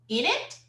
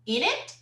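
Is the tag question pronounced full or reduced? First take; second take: reduced; reduced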